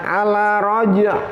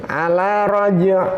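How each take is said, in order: Both takes have the same delivery.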